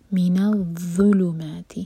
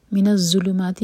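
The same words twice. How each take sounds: First: الظلمات with a heavy zha, tongue tip out; full-mouthed zha. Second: من الظلمات with a z for the zha; wrong z sound. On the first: Teacher gives the correct الظلمات slowly. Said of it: "منہ بھر کر پڑھا جائے گا". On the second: Teacher shows the wrong way to read الظلمات. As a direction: demo the mistake, a plain z in الظلمات. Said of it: "تو یہ بالکل غلط ہے". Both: Shown as a demonstration.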